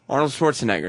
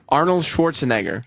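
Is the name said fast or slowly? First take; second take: fast; slowly. First: The name is said fast. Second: The name is said slowly. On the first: "say it real fast now" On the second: "Say say his whole name slowly"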